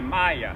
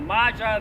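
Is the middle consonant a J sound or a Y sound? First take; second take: Y sound; J sound. First: The middle consonant is a Y sound. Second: The middle consonant is a J sound. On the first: The speaker calls it right. "the J is pronounced Y" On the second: The speaker calls it wrong. "It's not Maja"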